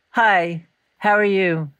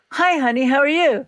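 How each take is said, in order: First: Subdued phone hello, with a pause after "Hi"; unhappy greeting. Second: Higher-pitched, cheerful phone hello; good-mood greeting. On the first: Imitating mother answering the phone unhappy, subdued and halting. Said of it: "I knew she was unhappy". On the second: Imitating mother answering the phone in a good mood, cheerful. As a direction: imitate a mother happy to hear from you. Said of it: "If she was in a good mood". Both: Retold or imitated.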